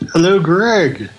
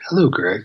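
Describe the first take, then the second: First: It is said in his own loud voice. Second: It is said in a put-on pilot voice.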